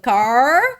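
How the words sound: It is said with a strong American R.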